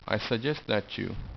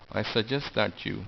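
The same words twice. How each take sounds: First: 'That you' joins with a ch sound. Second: 'That you' joins with a t sound. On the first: "You can also make chew sound" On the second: "instead of tew sound"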